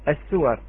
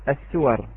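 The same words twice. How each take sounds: Both takes have the same delivery.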